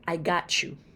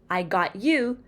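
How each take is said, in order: First: Got and you blend with a ch sound. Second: Got and you are said separately.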